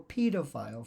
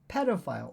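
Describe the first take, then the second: First: It is said with the British pronunciation. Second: It is said with the American pronunciation.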